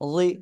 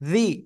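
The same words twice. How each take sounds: First: The consonant is made with tongue-edge contact. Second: The consonant is made without the tongue-edge contact. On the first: The speaker calls it right. "জিহ্বার গোড়ার কিনারা উপরে মাড়ি দাঁতের গোড়ার সাথে লাগবে" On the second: The speaker calls it wrong. "এরকম না কিন্তু, এই যে জি, এরকম না"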